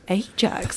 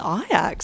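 First: The name is said like the detergent brand. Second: The name is said the way the Dutch say it. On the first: This is how the name was first assumed to sound. The speaker calls it wrong. "was it a detergent, Ajax?" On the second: This is how the club's own people say the name. The speaker calls it right. "that's how they pronounce it"

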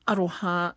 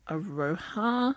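First: The word is said with Māori vowels and sounds. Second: The word is said with anglicized vowels and sounds. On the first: The speaker calls it right. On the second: The speaker calls it wrong.

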